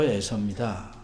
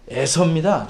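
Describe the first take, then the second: First: The name is said plainly, without special emphasis. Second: The name is said with strong, forced emphasis. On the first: This is an ordinary self-introduction. "보통은 아, 저 에서입니다. 이렇게 말하죠" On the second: The speaker is straining to insist on who he is. "원문에서는 에서를 강조합니다"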